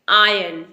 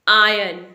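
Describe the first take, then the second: The two takes are said the same way.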